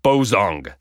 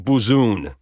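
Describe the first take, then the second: First: The name is said the usual American way. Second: The name is said the usual Mexican way. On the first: "In the U.S., most people pronounce it Bozong" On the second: "In Mexico and most other places outside the United States, people say Buzun"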